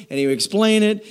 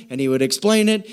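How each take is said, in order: Both takes have the same delivery.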